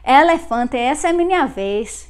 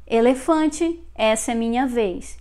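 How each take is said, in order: First: Punchy Northeast Brazilian accent, open vowels. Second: "Elefante" with closed ay-like e's and final ee; more closed vowels. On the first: Teacher repeating how northeasterners say it, open Northeast Brazilian accent. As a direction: hit "Elefante" loud with open Northeast Brazilian e's. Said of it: "They would pronounce like that". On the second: Teacher contrasting own accent with northeasterners', closed e's in "Elefante". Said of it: "Notice how I pronounced more closed". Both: Shown as a demonstration.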